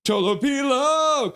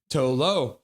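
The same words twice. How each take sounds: First: High, loud, slow name call; excited holler; cheering the goalie. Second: Said in the usual way. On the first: Real, not acted. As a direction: stretch the name like a crowd chant.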